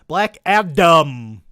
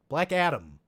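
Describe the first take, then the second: First: The D is crisp and strongly pronounced. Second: The D is soft and quickly said.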